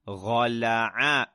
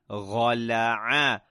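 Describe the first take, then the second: Both takes have the same delivery.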